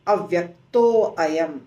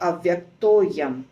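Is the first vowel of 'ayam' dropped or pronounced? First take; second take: pronounced; dropped. First: The first vowel of ayam is pronounced separately. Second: The first vowel of ayam is dropped after avyakto. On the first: The speaker calls it wrong. "अयम भी नहीं" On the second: The speaker calls it right.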